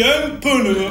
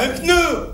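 First: Pneu stretched into "peu-neu"; Marseille-style two-syllable pneu; extra E. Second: Pneu in one syllable; no inserted E. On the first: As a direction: add an E between the P and N of pneu. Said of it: "on en met là où il en faut pas". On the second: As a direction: say pneu with P and N run together. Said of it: "Nous, on dit pas". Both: Shown as a demonstration.

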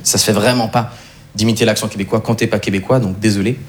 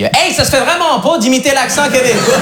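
First: Said in the usual way. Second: Put-on high, slow Quebec-accent scolding. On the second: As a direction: drawl it up like a Montreal buddy, Quebec accent. (accent québécois traînant et aigu) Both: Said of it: "il me l'a pas dit comme ça".

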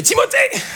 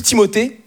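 First: High-pitched yell, no real volume; mock yell. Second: Said in the usual way. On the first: Shown as a demonstration. Parent scolding a child by name, high half-successful yell. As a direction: try to holler the name angrily. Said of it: "un prénom qui est cool à gueuler". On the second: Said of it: "si tu dis Timothée".

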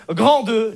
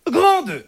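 First: Said in the usual way. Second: "Grand deux" pitched high and drawn out; emphatic announcement. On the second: Real, not acted. Heading repeated for comic emphasis.

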